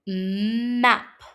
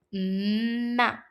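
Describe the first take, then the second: First: "Map" with the opening mm held and hummed, then the rest of the word; map said slowly. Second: Said in the usual way. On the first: Shown as a demonstration. Teacher slowly sounding out "Map" for children, the opening mm held and hummed. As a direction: stretch the mm at the start of "Map" before opening to the vowel. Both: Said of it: "say the word map slowly".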